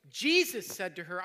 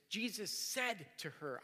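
First: "Jesus" punched loud, the rest falls away; stress on JESUS. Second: "said" stretched and lifted; stress on SAID. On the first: Preacher showing the memorizing trick, stressing "Jesus". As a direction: hit the word "Jesus" hard. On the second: Preacher showing the memorizing trick, stressing "said". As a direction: lean slowly on the word "said". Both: Shown as a demonstration. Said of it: "Alternate emphasizing each word".

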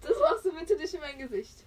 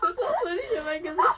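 First: Louder protest leaning on machst; insist, stressing machst; firm plea. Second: Laughing, shouted much higher and louder protest. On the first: Friend asks again not to put mask on her face, firmly. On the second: Friend gets mask on her face, laughing and shouting. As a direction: yell it through real laughter. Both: Real, not acted.

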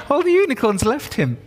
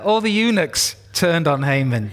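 First: "unicorns" said through laughter, much higher, in place of "eunuchs"; laughing slip. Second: Said in the usual way. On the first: Real, not acted. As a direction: giggle out "unicorns" instead of "eunuchs". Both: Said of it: "I'm just not used to saying eunuch".

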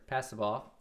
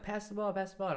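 First: Said in the usual way. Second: Put-on high, excited kid voices begging for the ball; imitating children shouting to be passed to; kids calling out. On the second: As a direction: squeal it like eager little kids.

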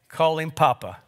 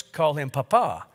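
First: Papa with the weight on PA at the start; stress on first syllable. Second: Papa with the weight on the final PA; stress on last syllable. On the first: Speaker reading names for fathers, Papa stressed on first syllable. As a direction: hit the first syllable of Papa, let the second drop. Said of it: "accent on the first syllable". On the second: Speaker reading names for cultured fathers, Papa stressed on last syllable. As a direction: go light on the first syllable of Papa, land on the last. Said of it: "accent on the last syllable". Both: Shown as a demonstration.

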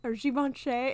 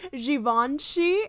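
First: Givenchy said with a hard G like the letter; Givenchy with a plain hard G; her way. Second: Givenchy said slowly the French way; his way. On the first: Shown as a demonstration. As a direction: say Givenchy the American way. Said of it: "I was like". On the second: Retold or imitated. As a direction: imitate how the guy said Givenchy, drawn out. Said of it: "how did he say it".

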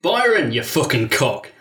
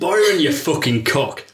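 First: Rough Northern English accent, slow and heavy. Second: Put-on slow Northern English accent on the insult. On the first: Shown as a demonstration. Greeting an old friend with a Northern insult, in a Northern accent. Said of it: "I've started another accent". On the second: A familiar voice from the shadows insults Byron, in a Northern accent. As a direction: lean into the Northern vowels, slow. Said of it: "Can I stick with it".

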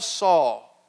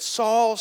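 First: Saul dropped low with a falling end; falling low call. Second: Saul called out rising, a little louder. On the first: Jesus calling Saul a second time, low and falling. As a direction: let the name sink, heavy and grave. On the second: Jesus calling to Saul on the road, rising call. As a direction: call his name upward to get attention. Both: Acted.

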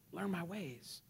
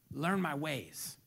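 First: "Learn my ways" repeated much softer; softer echo. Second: Quoting God slowly and lower; measured and gentle; slow, soft. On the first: Real, not acted. Preacher echoing God's words, much softer. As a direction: drop to near a hush. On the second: Acted. Preacher quoting God, slow and soft. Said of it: "He says this".

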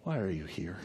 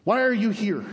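First: Very soft, low question; quiet, lowered voice of God; whisper-like hush. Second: Higher, firm challenge; pointed, raised-voice question; messenger of God. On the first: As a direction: ask it gently as God in the hush. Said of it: "And then there was a whisper". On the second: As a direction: put the question forcefully from on high. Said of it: "he says". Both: Acted.

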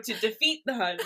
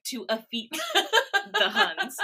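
First: "defeat" said clearly with a crisp d; correct pronunciation. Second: Put-on "affeat" said instead of "defeat", child's slip, half-sung with a laugh; mispronounced. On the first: Shown as a demonstration. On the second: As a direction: sing "to affeat the Huns" as a toddler would. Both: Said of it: "I did not pronounce words correctly".

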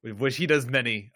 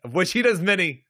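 First: Said in the usual way. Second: Higher, louder insistence; emphatic repeat. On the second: Real, not acted. Co-host insists Data uses many contractions, emphatic and loud. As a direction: punch it up loud and high.

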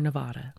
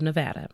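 First: "Nevada" with middle vowel as in "father"; open-AH "Nevada"; speaker's own pronunciation. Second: "Nevada" with middle vowel as in "cat"; flat-A "Nevada", rhyming with "had a"; local pronunciation. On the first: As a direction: say "Nevada" as ne-VAH-duh, dropping softer. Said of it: "We say Nevada". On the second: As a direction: say "Nevada" as ne-VAD-uh. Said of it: "but they say Nevada". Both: Shown as a demonstration.

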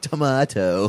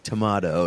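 First: Mock echo, "Tomato" pitched up and exaggerated. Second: "Tomato" with a broad AH in the middle; accented tomato. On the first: Guy at bar mocks girl's accent, higher "Tomato". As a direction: throw "Tomato" back higher, making fun of the accent. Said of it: "like, mocking her". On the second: Retold or imitated. Girl at bar answers guy, "Tomato" in accented to-MAH-to. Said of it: "the girl with the accent".

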